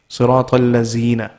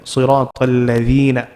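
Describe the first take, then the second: First: The middle consonant is a buzzing 'z' sound. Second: The middle consonant is a soft 'th' sound. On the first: The speaker calls it wrong. "in our accent, when we say it, what do we say?" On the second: The speaker calls it right. "try the tip of the tongue, bringing it out"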